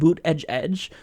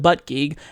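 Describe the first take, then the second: First: The name starts with 'boot' and ends 'edge'. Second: The name starts with 'butt' and ends 'gig'. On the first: The speaker calls it right. "It's actually pronounced Boot Edge Edge" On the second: The speaker calls it wrong. "I know that I'm mispronouncing his name"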